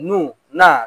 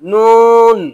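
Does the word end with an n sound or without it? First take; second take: without it; with n. First: The word ends on the vowel without n. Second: The word ends with a clear n sound. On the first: The speaker calls it wrong. "অনেকে নু বলে, নু না" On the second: The speaker calls it right.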